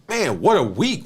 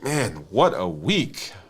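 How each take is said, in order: First: It is said in an excited, upbeat tone. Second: It is said in a weary, worn-out tone. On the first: The week was wonderful. "What an amazing week" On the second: The week was exhausting and unwanted. "I can't deal with another one like this"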